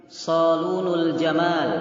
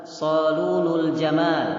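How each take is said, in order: Both takes have the same delivery.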